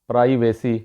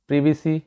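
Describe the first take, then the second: First: The first vowel sounds like 'eye'. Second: The first vowel sounds like 'ih'. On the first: The speaker calls it wrong. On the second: The speaker calls it right.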